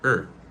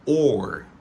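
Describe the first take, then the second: First: The word is reduced to a weak vowel. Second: The word is said with its full vowel. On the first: "il réduit en E" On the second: "de manière normale, les prononcer comme or"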